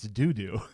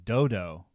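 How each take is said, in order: First: Both vowels are 'oo' sounds, like doo doo. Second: Both vowels are 'oh' sounds, like dodo. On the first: The speaker calls it right. "you're right. It's doo doo" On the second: The speaker calls it wrong. "misread in my mind. In my mind, it was dodo"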